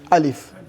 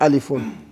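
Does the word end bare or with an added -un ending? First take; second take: bare; -un ending. First: The word ends bare, with no -un ending. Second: The word ends with an added -un ending. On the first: The speaker is stopping on the word. "Instead of you to say what?" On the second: The full case ending is being pronounced. "Then you pronounce the Dummatain alifun"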